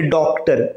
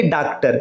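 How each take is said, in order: First: डॉक्टर with a rounded "aw", "dawk-tar". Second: डॉक्टर said as "daak-tar"; open AA mispronunciation. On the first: Teacher has students try it, डॉक्टर as "dawk-tar". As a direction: round the first vowel of डॉक्टर. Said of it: "अब बोल के देखिए". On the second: Teacher rules out the wrong form, डॉक्टर as "daak-tar". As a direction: open the first vowel of डॉक्टर to "aa". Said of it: "न कि". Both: Shown as a demonstration.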